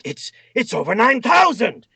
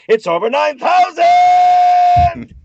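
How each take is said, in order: First: The line is said short and quick. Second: The line is drawn out and screamed. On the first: The speaker calls it wrong. "nice and quick" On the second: The speaker calls it right. "you just kinda scream it out"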